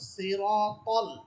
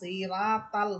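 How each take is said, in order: First: The letters are pronounced heavy and full. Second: The letters are pronounced light and thin. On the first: The speaker calls it right. "এখানে হবে সিরাতাল মোটা করে" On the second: The speaker calls it wrong. "সিরা রায়ের উপরে জবর দিয়ে পড়ে, এটা ভুল"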